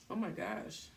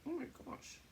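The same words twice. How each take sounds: First: Said in the usual way. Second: "Oh my gosh" whispered high, no voice. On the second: Real, not acted. Exclaims, then repeats whispered.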